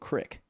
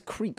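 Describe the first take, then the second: First: The vowel is a short 'i' sound. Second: The vowel is a long 'ee' sound. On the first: The speaker calls it wrong. "he said crick" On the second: The speaker calls it right. "He says creek weird"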